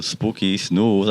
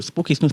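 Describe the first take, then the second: First: Even, firm naming of the cats; a bit more serious. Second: High, sing-song call to the cats; light high call. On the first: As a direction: call them firmly as a warning. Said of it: "a bit more serious". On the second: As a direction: call them sweetly, as if it doesn't matter. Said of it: "not to". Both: Shown as a demonstration.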